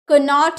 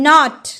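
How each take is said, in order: First: The k sound is pronounced before the n. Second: The word starts directly with the n sound. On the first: The speaker calls it wrong. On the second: The speaker calls it right.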